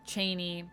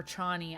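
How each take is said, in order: First: "Chani" as CHAY-nee; first pronunciation variant. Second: "Chani" as CHAH-nee; alternative pronunciation. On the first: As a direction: say "Chani" with a long AY, like "rainy". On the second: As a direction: say "Chani" with an open AH in the first syllable. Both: Shown as a demonstration. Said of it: "I've seen people say it both ways".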